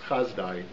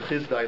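First: The first vowel sounds like 'a'. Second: The first vowel sounds like 'i'. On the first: "Sometimes it's pronounced Chazdai" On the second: "it starts with the Chizdai letters"

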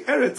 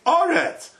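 First: The first vowel sounds like 'e'. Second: The first vowel sounds like 'o'. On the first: This is the ordinary form, not used at the pause mark. The speaker calls it wrong. "You don't say Eretz" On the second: This is the form used at the pause mark. The speaker calls it right. "Nikra Eretz Bekomatz. ... you say Oretz"

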